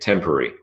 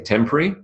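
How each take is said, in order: First: The word is said with three syllables. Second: The word is said with two syllables. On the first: "So temporary is three syllables" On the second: "temporary is two syllables"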